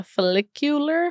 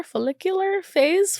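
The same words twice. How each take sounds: First: Said in the usual way. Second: Slow, high-pitched FOLLICULAR; playful relishing. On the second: Real, not acted. Vlogger enjoying the word follicular, playful. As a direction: savor "follicular", stretched out and high. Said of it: "it was fun saying it".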